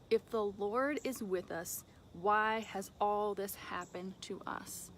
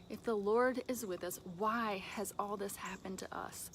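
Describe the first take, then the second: First: Drawn out, deliberate reading of the question; slow scripture reading. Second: Said in the usual way. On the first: Acted. Gideon questioning the angel, read slow and deliberate. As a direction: read Gideon's words slowly, letting them sink in.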